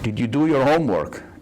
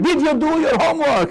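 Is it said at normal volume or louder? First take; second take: normal; louder. First: It is said at a normal volume. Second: It is said louder, with raised voice.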